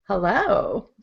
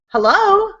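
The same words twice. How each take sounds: First: It sounds seductive, trying to charm someone. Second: It sounds urgent, trying to stop someone leaving.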